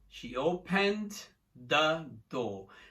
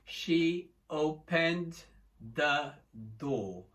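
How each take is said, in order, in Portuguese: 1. As palavras saem juntas e fluidas. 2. Cada palavra é dita separada e claramente. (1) "Só que aqui eu não falo open" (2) "Eles não falam"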